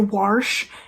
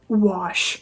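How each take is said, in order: First: The word is said with an R sound. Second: The word is said without an R sound. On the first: The speaker calls it wrong. "people say wash" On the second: The speaker calls it right. "There's no R in there anywhere"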